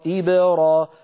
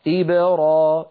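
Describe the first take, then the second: The two takes are said the same way.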